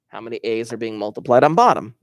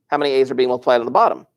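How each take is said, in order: First: It is said more slowly. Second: It is said quickly.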